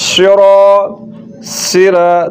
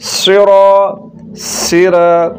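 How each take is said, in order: The two takes are said the same way.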